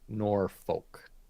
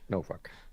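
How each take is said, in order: First: The R sound in the first syllable is pronounced. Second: The R sound in the first syllable is dropped. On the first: This is how outsiders say it. The speaker calls it wrong. "Most people would say Norfolk, but that's not how they" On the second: This is how locals say it. The speaker calls it right. "no R"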